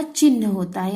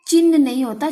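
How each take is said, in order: First: चिन्ह said as the right form, calmer; correct form. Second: चिन्ह said as the wrong spelling, louder; wrong form, stressed. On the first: (सही चिन्ह, शांत स्वर में) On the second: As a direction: hit the wrong चिन्ह firmly. (गलत चिन्ह, ज़ोर देकर) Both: Shown as a demonstration.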